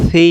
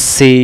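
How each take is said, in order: First: Light air over the tongue tip on সি; tongue-tip articulation. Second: সি with a sharp hissed s; wrong sin sound. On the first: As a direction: say সি like "thee" with a voiceless th. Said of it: "জিহ্বাটার আগা থেকে হালকা বাতাস বেরোবে". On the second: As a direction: say সি like "see". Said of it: "তখন সিন অক্ষর উচ্চারণ হবে". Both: Shown as a demonstration.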